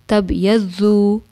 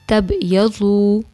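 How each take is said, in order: Both takes have the same delivery.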